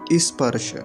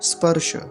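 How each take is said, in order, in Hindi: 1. s से पहले एक अतिरिक्त i स्वर जोड़ा जाता है। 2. यह सीधे s ध्वनि से शुरू होता है। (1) "और गलत उच्चारण क्या होता है?" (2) "ध्यान से सुनेंगे"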